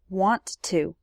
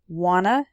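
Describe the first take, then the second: First: Both words are said clearly and separately. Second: The words are shortened into one blended word.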